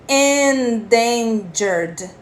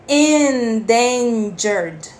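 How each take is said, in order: Both takes have the same delivery.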